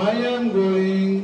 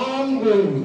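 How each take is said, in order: First: Each word is said fully and separately. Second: The first two words are joined into one.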